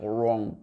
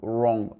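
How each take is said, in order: No difference in how they are said.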